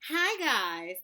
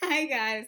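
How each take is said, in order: First: It is said with over-the-top energy. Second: It is said with calmer, moderate energy.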